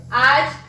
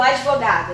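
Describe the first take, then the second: First: "advogado" broken into ad, vo, ga, do; long pauses between the syllables of "advogado". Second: Said in the usual way. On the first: Shown as a demonstration. ("advogado" separado em sílabas, com pausas: ad, vo, ga, do) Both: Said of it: "quando eu separo".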